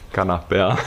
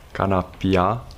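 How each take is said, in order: First: The last syllable is said with a standard 'ea'. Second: The last syllable is said with a Transylvanian 'ia'. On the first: The speaker calls it right. "EA corect în limba română" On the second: The speaker calls it wrong. "acel IA ardelenesc"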